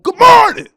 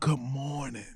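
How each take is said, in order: First: It is shouted loudly and aggressively. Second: It is said softly and calmly. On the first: The greeting feels aggressive. The speaker calls it wrong. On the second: The greeting feels gentle and welcome. The speaker calls it right.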